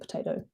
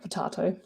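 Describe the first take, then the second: First: It is pronounced the American way. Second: It is pronounced a non-American way. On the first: "Americans say tomato, because they say potato" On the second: "not potato"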